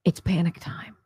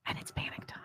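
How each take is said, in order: First: Hushed, breathy stage whisper. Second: Barely audible breathy whisper; faint whisper. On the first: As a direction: whisper it like a secret. Whispered after poll list. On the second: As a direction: let it fade almost to nothing. Repeated even softer. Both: Acted.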